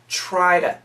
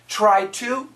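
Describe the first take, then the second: First: Said fast with the t turned into d. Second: Said carefully with a clear t sound.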